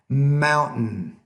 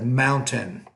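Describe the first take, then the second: First: The middle T is a glottal stop. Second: The middle T is fully pronounced. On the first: "we don't really pronounce that T in the middle" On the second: "instead of"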